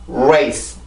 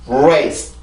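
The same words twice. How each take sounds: No difference in how they are said.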